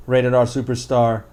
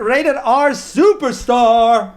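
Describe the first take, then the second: First: Said in the usual way. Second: High, drawn-out ring announcer call; ring announcer imitation. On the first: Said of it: "calls, brought him in as". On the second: Wrestling fan excitedly imitates a superstar's introduction, ring announcer style. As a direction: stretch it out like a wrestler's big introduction. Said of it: "that ring announcer".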